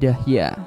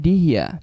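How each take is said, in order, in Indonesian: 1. Vokal pertama adalah bunyi 'a'. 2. Vokal pertama adalah bunyi 'i'. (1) "dengan di fathah dalnya menjadi dahya" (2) "kasrah dalnya menjadi dihya"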